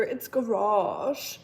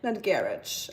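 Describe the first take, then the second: First: Mock-correct garage as a native speaker would, slowly; correcting pronunciation. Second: Garage said with a hard ending like "garidge", stress on GA; mocked wrong pronunciation. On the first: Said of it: "They're like". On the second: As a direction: imitate the foreigner's wrong garage. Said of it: "you silly not native speaker".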